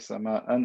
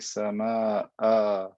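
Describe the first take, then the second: First: The word ends with an n sound. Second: The word ends with a long vowel. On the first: The speaker calls it wrong. "I don't say sama'an" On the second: The speaker calls it right. "I say sama'a"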